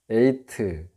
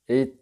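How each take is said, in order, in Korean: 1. 한국식으로 세 음절로 발음해요. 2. 영어처럼 두 음절로 발음해요. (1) "영어 발음도 좀 한국어 발음으로 적어 놓으니까" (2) "원래 읽으면 에잇 이렇게 해야 되는데"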